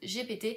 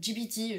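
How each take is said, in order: First: The letters are spelled out the French way. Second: The letters are spelled out the English way. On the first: "je le prononce à la française" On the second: "je sais plus comment on dit"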